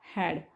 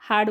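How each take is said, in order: First: The vowel is short and flat, like 'cat'. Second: The vowel is open and long, like 'father'. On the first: The speaker calls it right. "हा आहे उच्चार हॅड" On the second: The speaker calls it wrong. "हाड म्हणतात मुलं काही वेळेस ह्याला"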